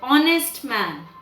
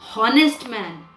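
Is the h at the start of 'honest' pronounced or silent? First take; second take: silent; pronounced. First: The word starts with a vowel, h silent. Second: The word starts with an audible h sound. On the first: The speaker calls it right. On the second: The speaker calls it wrong.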